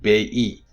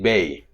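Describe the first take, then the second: First: The two vowel parts are said as separate syllables. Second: The two vowel parts glide together into one syllable. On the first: The speaker calls it wrong. "So you don't say B-E" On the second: The speaker calls it right. "you say Bay"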